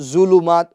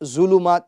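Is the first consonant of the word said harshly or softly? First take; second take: harshly; harshly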